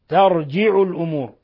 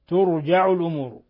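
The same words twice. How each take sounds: First: The first vowel is a, the j has i. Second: The first vowel is u, the j has a. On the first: "بفتح التاء ترجع الأمور، فتح التاء وكسر الجيم" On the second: "بضم التاء وفتح الجيم ترجع الأمور"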